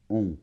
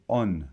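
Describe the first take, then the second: First: A nasal vowel with no N consonant heard. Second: The vowel is followed by an audible N consonant. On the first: The speaker calls it right. "On n'entend pas la lettre N" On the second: The speaker calls it wrong. "tu ne dois pas dire on"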